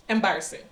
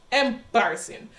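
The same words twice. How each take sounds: First: Said in the usual way. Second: "Embarrassing" said with lingering, emphatic disapproval; emphatic repeat. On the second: Real, not acted. Second, drawn-out take for emphasis.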